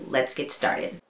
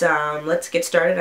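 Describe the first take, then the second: First: Soft unvoiced whisper. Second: Said in the usual way. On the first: Real, not acted. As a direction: breathe it out in a whisper. Second take after intro.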